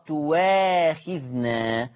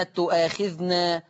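First: تواخذنا said very slowly as "tuwaakhidhna"; drawn-out waw in تواخذنا; hamza as waw. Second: Said in the usual way. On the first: Shown as a demonstration. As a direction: glide on w in تواخذنا, no glottal stop. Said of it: "فتبدل بواو مفتوحة". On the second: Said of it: "تقرأ".

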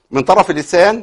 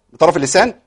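The two takes are said the same way.

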